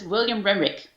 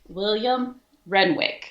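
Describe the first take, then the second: First: The two names run together quickly without a pause. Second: A clear pause separates the two names.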